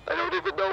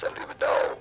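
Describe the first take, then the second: First: "I don't even know" jumps way up into a silly squeak; squeaky high voice. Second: Said in the usual way. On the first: Acted. Producer clowning for the hosts, squeaky high silly voice. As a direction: squeak it out like a cartoon. Producer repeats line, goofy voice.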